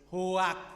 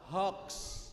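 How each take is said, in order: First: The word ends in a plain k sound. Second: The word ends in a ks sound. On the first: The speaker calls it wrong. "Ibu-ibu le do maca hoak" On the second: The speaker calls it right. "Yang betul yang maca niku hoax"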